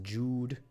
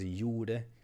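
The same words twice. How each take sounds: First: The name is said the English way. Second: The name is said the German way. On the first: This is how the name is probably meant. "he's probably pronounced as Jude" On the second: It sounds like a German word, which is funny.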